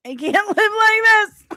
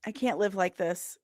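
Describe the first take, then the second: First: High and loud, laughing mid-line; mock despair cracking into a laugh; comic wail of despair. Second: Said in the usual way. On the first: Real, not acted.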